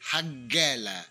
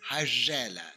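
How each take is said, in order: First: The word is said the Cairo way. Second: The word is said another group's way. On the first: This is how the word is said in the capital. "Here in Cairo, we say Hagalla" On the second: This is how some other people say the word. "some people say Hagalla"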